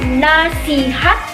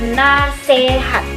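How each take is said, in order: First: The second vowel is an i sound. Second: The second vowel is an e sound. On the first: The speaker calls it right. "pelafalan fonem I" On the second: The speaker calls it wrong. "berubah menjadi fonem E"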